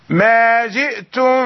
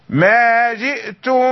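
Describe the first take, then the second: Both takes have the same delivery.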